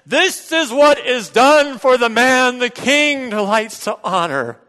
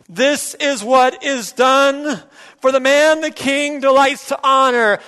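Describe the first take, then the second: First: It is said loudly with more passion. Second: It is said louder than before.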